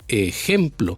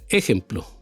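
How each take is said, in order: First: The stress is on the middle syllable. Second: The stress is on the first syllable. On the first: The speaker calls it right. "el golpe de voz va en la palabra gem" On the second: The speaker calls it wrong. "no en la e"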